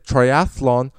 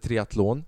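First: The word is pronounced the English way. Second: The word is pronounced the Swedish way. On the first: "men jag vet att det heter triathlon på engelska" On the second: "Jag vet inte om det heter triathlon på svenska"

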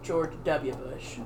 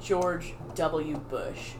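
First: The W is said in a shortened, clipped form. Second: The W is said as the full letter name. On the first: The speaker calls it right. "It's George W. Bush. ... Because that's how he says it" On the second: The speaker calls it wrong. "it's not George W. Bush"

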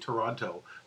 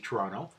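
First: Said slowly with the second T clearly pronounced. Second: Said naturally with the second T dropped. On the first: A careful, deliberate pronunciation. "you slow it down and you deliberately say Toronto" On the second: The way locals say it. "those of us who live here would say Toronto"

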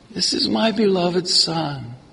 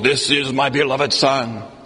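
First: It is said in a soft, gentle voice. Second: It is said in a loud, booming voice.

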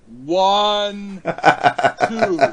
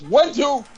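First: The two words are said slowly. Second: The two words are said quickly.

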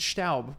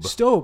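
First: The vowel does not sound like 'oh'. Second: The vowel sounds like 'oh', rhyming with robe. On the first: The speaker calls it right. "he pronounced it Staub, which is probably the right pronunciation" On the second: The speaker calls it wrong. "Like S-T-O-B-E"

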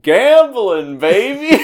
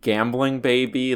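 First: A break separates 'gambling' from 'baby' as an exclamation. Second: Both words run together as one title.

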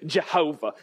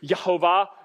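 First: The name begins with a J sound. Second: The name begins with a Y sound. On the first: This is the usual English form. "But you'd say Jehovah, ... So somehow we get this J in things" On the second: This is the original Hebrew form. "It's actually written in Hebrew"

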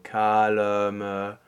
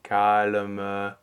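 First: A short schwa sounds between the L and M. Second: A short schwa sounds between the L and M.

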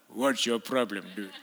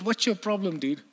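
First: It is said in a deep, menacing voice. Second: It is said in a light, casual voice. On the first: The speaker calls it right. "He was like" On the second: The speaker calls it wrong. "But he didn't sound like that"

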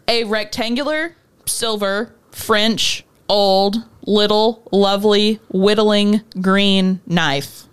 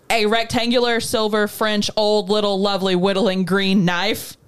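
First: It is said slowly. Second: It is said at normal speed.

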